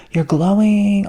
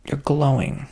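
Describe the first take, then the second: First: Higher, louder mock-gushing "You're glowing."; hammed-up admirer gushing "You're glowing."; gushing compliment. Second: Said in the usual way. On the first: People complimenting you, quoted.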